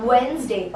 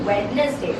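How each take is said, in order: First: "Wednesday" said slowly WENZ-day; two syllables in "Wednesday", silent d; correct pronunciation. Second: "Wednesday" said slowly WED-nes-day; mispronunciation. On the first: Teacher correcting learners, "Wednesday" as wenz-day. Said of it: "it's Wednesday". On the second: Teacher showing what to avoid, "Wednesday" as wed-nes-day. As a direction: sound the d and middle e in "Wednesday". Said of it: "It's not Wednesday". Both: Shown as a demonstration.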